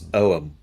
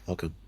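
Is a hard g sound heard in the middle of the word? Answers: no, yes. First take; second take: no; yes. First: The word is said without a middle g sound. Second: The word is said with a middle g sound. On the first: The speaker calls it right. "It's actually it's Oam" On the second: The speaker calls it wrong. "It's not Ogham"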